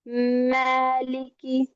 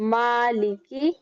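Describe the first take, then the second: First: The first vowel is bent toward an e sound. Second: The first vowel is a clear a sound. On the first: The speaker calls it wrong. "इसको मैलिकी" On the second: The speaker calls it right. "सही अदायगी मालिकी"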